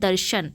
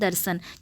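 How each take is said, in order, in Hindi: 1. बीच का व्यंजन 'sh' ध्वनि है। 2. बीच का व्यंजन सादा 's' ध्वनि है। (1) "सही अ, लेखन और उच्चारण है" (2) "सीधे सीधे बोलते हैं"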